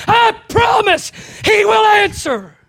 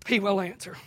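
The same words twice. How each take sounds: First: High, loud and slow; shouted promise. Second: Softer, lower repeat; soft echo. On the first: Preacher promising the congregation, slow loud high cry. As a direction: proclaim it with all your force. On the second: Preacher echoing his promise to the congregation, soft and low. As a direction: let it fall to a quiet certainty. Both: Real, not acted.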